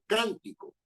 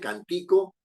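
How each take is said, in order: First: The stress is on the first syllable. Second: The stress is on the middle syllable. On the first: The speaker calls it right. "la sílaba predominante está en can" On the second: The speaker calls it wrong. "uno no dice cantico"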